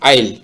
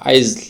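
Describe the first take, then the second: First: No s or z sound is heard. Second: An s or z sound is heard in it. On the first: The speaker calls it right. "এস এর উচ্চারণটা বাদ দিলে আইল" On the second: The speaker calls it wrong. "যদি এস এর উচ্চারণ হয় তাহলে তো অন্যরকম একটা উচ্চারণ হবে"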